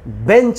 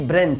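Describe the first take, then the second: First: The word is said without an r sound. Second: The word is said with an r after b. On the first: The speaker calls it right. "सिर्फ हम बेंच बोले" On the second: The speaker calls it wrong. "ना कि ब्रेंच"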